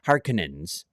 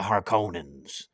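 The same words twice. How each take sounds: First: The middle O vowel is weak and reduced. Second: The middle O vowel is full and clear. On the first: It is the newer way of saying the name. The speaker calls it wrong. "I prefer that one than the" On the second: It is the older way of saying the name. The speaker calls it right. "I like the O in there"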